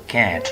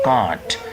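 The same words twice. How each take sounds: First: It is said in an American accent. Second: It is said in a British accent. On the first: "In American English, that is can't" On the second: "That's British"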